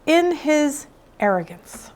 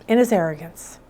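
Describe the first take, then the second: First: Said in the usual way. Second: In his arrogance dropped low and soft; In his arrogance repeated low and hushed; low emphatic repeat. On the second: Shown as a demonstration. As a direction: let In his arrogance sink in, lower. Repeating the phrase to let it sink in.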